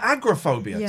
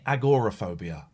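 First: It is said in the older, less spelled-out form. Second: It is said closely following its spelling. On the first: This is the long-established way to say it. "It's always been agoraphobia to me" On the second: This is a newer way people say it. "this current trend in pronouncing it agoraphobia? I know that's how it's spelt"

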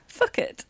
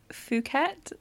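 First: The word sounds like fuck it. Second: The word sounds like poo-ket. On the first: This reads the spelling letter by letter. "if you pronounce it phonetically" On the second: This is the local name of the place. "I think that's how you pronounce it"

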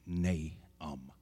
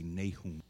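First: The stress is on the first syllable. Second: The stress is on the second syllable. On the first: The speaker calls it right. "the emphasis on the A" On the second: The speaker calls it wrong. "I've heard some people say Nahum, but that's not the appropriate pronunciation"

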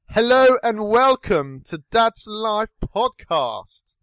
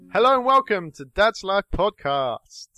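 First: It is said in a posh accent. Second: It is said in his ordinary accent.

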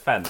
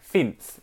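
First: It is said in a British accent. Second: It is said in a New Zealand accent. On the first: "instead of fence" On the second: "they say like, fence"

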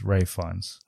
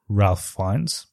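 First: The first name sounds like 'Rafe', with no L. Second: The first name sounds like 'Ralf', with an L. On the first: The speaker calls it right. "but it's Ralph Fiennes" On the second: The speaker calls it wrong. "I always thought it was Ralph Fiennes"

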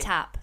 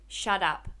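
First: The middle consonant is a crisp T sound. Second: The middle consonant is a soft D sound. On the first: It sounds aggressive. "Say it with a T" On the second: It sounds less aggressive. "Say it with a D"

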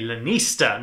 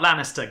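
First: It sounds unlike the fantasy family name. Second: It sounds like the fantasy family name. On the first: The speaker calls it right. "I should say, Lannister" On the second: The speaker calls it wrong. "not Lannister, goddammit"

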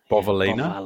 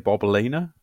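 First: The middle consonant is a v sound. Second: The middle consonant is a b sound. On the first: "I realize it's got a V in it" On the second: "in an Aussie accent, it sounds like Bobalina"

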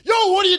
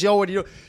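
First: It is yelled loudly. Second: It is said in a calm, normal voice.

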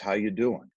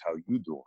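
First: It is said sincerely, with warm empathy. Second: It is said as a Joey from Friends impression.

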